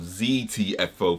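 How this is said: The letters are said the American way.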